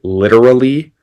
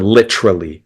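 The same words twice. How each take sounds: First: The middle is said without a T-R sound. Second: The middle is said with a T-R sound.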